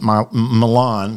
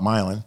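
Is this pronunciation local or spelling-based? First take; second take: spelling-based; local. First: The name is pronounced the way it is spelled. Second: The name is pronounced the way residents say it. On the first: An outsider reads the name off the page. The speaker calls it wrong. "I pronounced it Milan because that's how it's spelled" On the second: This is how people there say it. The speaker calls it right. "but they call it Milan"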